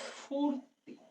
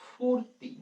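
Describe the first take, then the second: First: The word begins with an added s sound. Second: The word begins directly with a ph sound. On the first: "শব্দের একদম শুরুতে একটা ব্যঞ্জন ধ্বনি চলে আসছে, দন্ত স চলে আসছে" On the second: "আমি ধরো বললাম ফুর্তি"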